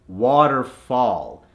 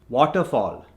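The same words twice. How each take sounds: First: It is said with an American accent. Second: It is said with an Indian accent. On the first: "to the American accent" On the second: "from the Indian accent"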